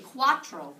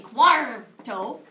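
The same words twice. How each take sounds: First: Cuatro said crisply, tr together, falling; clear cuatro. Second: Cuarto with a loud pirate ar, ending in a rise. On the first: Teacher modelling the number word for the class. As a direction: say cuatro with tr after the a. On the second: Teacher leading the class in a drill with a pirate ar. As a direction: growl the ar in cuarto. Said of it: "come on, little pirates". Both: Shown as a demonstration.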